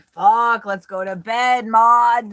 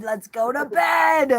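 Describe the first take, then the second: First: Loud, higher mock drunk grumble; hammed-up drunk chicken, a bit louder. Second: Put-on higher, slow, loud drunken wail; hammed-up drunken shout, slow and high; drunk chicken shout. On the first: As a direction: play a tipsy chicken fed up and ready for bed. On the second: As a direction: howl it like a drunk hen begging for bed. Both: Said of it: "or were they like".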